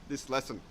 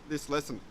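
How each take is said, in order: Both takes have the same delivery.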